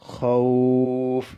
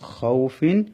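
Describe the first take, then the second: First: The 'aw' is held long, ending on f. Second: The 'aw' is short, with a final -in ending. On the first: The reader stops on this word. "এবার টেনে পড়তে হবে ওয়াটাকে দুই আলিফ" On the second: The word is read on without stopping. "এখানে টান হবে না"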